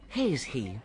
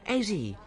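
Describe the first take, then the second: First: The h sounds at the word starts are pronounced. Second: The h sounds at the word starts are dropped. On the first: The speaker calls it right. "I should say has he" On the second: The speaker calls it wrong. "I've got a lot of difficulty with them"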